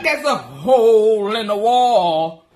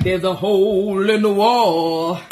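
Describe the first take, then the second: First: Slow, lower, laughing echo of the line; mock the husband by repeating slowly. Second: Slow, lower, deliberate deadpan. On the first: Imitating husband repeating her news, slow with laughter. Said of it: "my husband like". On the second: Retold or imitated. Telling Hezekiah about the hole, slow and deadpan. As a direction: spell it out slowly like it's obvious. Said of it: "And I'm like".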